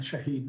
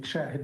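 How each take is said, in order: First: Shahid with stressed long ee: sha-HEED; martyr pronunciation. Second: Shahid with stressed first syllable, short i: SHAA-hid; eyewitness pronunciation. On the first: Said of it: "Shahid means martyr". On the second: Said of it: "Shahid means eyewitness". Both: Shown as a demonstration.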